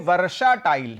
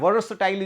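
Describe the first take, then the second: First: A full 'ah' vowel follows 'vers' before 'tile'. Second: No vowel follows 'vers' before 'tile'. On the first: The speaker calls it wrong. "अब इसका उच्चारण गलत कर दीजिए" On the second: The speaker calls it right. "हालांकि गलत नहीं करना है, वर्षटाइल उच्चारण होता है इसका"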